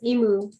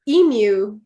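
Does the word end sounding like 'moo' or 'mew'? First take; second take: moo; mew. First: The vowels are pronounced Hawaiian-style, ending like moo. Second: The word ends with a mew sound, like yoo. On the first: The speaker calls it wrong. "I was pronouncing the vowels as if it was Hawaiian" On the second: The speaker calls it right. "why is it mew?"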